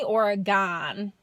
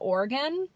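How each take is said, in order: First: It is said in a Michigan accent, stressing the vowels. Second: It is said the Northwest way, like 'organ'.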